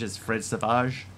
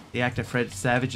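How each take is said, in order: First: Savage said as "sa-VAHZH"; imitating Savage mispronounced as French "suh-VAHZH"; French-style pronunciation. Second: Said in the usual way. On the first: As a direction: give Savage a French ending, stressed on the second syllable. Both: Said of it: "heard someone once refer to".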